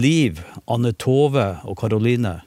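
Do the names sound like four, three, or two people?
three. The names are grouped into three phrases. Three people were met.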